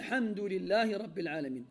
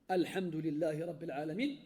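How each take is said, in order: First: The opening vowel is dropped and linked to the preceding word. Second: The opening 'al' sound is clearly pronounced. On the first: The phrase follows another without a stop. "je ne la prononce plus" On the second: Nothing comes before the phrase. "tu dis Al, parce qu'il n'y a rien avant"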